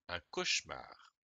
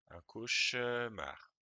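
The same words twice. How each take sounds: First: The middle e is dropped in relaxed speech. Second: The middle e is carefully pronounced aloud.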